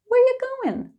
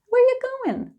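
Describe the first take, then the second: The two takes are said the same way.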